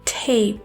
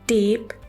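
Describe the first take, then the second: First: The first t has a puff of air. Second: The first t has no puff of air. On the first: The speaker calls it right. "Puff of air के साथ बोलना है" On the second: The speaker calls it wrong. "टी की sound को उर्दू के letter टे की तरह"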